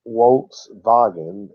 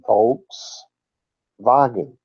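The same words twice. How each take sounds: First: It begins with an English W sound. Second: It begins with a V sound. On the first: The speaker calls it wrong. "It's not uh" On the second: The speaker calls it right. "it's Volkswagen... the W makes the V sound"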